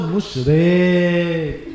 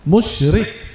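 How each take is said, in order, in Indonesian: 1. Vokal setelah r dibaca panjang. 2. Vokal setelah r dibaca pendek. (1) "لا نقول مشرك" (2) "راء عليها كسرة"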